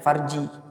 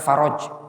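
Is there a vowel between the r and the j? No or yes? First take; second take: no; yes. First: No vowel separates the r and the j. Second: An o vowel separates the r and the j. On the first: The speaker calls it right. "bacanya farji" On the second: The speaker calls it wrong. "bukan faroj"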